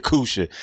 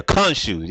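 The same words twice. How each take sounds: First: "Kusha" with no N, koo-shuh; "Kusha" with an oo and a weak final uh; mispronounced name. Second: "Khonshu" as KON-shoo, with the N; "Khonshu" pronounced KON-shoo; corrected name. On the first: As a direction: say "Kusha" as KOO-sha, dropping the N. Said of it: "I said Kusha". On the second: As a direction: say "Khonshu" with an open first vowel and final oo. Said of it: "that's how you say that moon god". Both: Shown as a demonstration.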